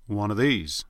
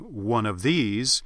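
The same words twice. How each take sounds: First: The words run together with sounds dropped. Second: Each word is said fully and separately. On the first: "you'd be more likely to say something more like one of these" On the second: "instead, for example, of saying one of these"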